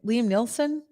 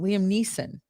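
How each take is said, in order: First: The surname has an L sound, like Nielsen. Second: The surname has no L sound, like Neeson. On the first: The speaker calls it wrong. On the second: The speaker calls it right.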